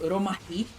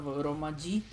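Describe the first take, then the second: First: The j is said like a Spanish h. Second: The j is said like an English j. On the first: "we would say Romaji" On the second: "instead of Romaji"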